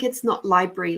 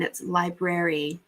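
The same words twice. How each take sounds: First: "library" said the careless way, mangled; mock example of badly articulated "library"; wrong pronunciation. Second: "library" said carefully with every syllable in place; prim corrected "library"; proper articulation. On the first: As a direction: demonstrate a sloppy "library" as the one to avoid. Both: Shown as a demonstration. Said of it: "We must articulate our words properly".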